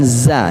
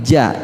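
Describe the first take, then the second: First: The syllable starts with a 'z' sound. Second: The syllable starts with a 'j' sound. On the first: The speaker calls it wrong. "bukan za" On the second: The speaker calls it right. "tapi ja. Ja itu gigi kita beradu"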